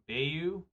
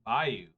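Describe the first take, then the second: First: Bayou said "BAY-yoo", first syllable like bay, rising; "Bayou" with a long a, BAY-yoo, questioning rise. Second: Bayou said "BY-oo", first syllable rhyming with buy; "Bayou" with a long i, BY-oo. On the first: Streamer testing the other Bayou, "BAY-yoo" with a long a. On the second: Streamer testing his Bayou, "BY-oo" with a long i. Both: Shown as a demonstration. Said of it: "I guess I say Bayou".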